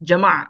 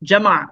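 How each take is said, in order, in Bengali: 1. শব্দটি খালি শেষ ব্যঞ্জন দিয়ে শেষ হয়। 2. শব্দটি খালি শেষ ব্যঞ্জন দিয়ে শেষ হয়।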